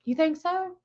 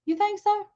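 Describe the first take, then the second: First: Said in the usual way. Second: Much higher playful "You think so?"; much higher teasing disbelief; higher incredulous repeat. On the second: Real, not acted. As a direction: throw the question back, pitched way up.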